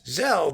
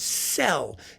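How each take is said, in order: First: The name begins with a z sound. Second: The name begins with an s sound. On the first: "Zell with a Z" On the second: "It's pronounced Cell in Hungarian"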